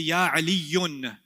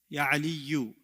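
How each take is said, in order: First: The name ends with an added n sound. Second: The name ends on a vowel without n. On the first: The speaker calls it wrong. "I don't say Ya Aliyun" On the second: The speaker calls it right. "I say Ya Aliyu"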